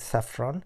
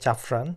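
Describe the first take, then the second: First: The word begins with an S sound. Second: The word begins with a J sound. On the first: The speaker calls it right. "সঠিক উচ্চারণ হবে" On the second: The speaker calls it wrong. "আমরা বাঙালিতে অপভ্রংশতে আমরা যেটা উচ্চারণ করি"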